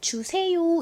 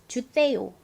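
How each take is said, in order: First: The first consonant is a plain j sound. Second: The first consonant is a tense, lisped sound. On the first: This is how an adult says it. The speaker calls it right. "주세요 이렇게 해야 되는데" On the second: This is how a young child says it. The speaker calls it wrong. "아직 혀가 짧아서 발음이 잘 안 되다 보니 주세요 이렇게 때 발음을"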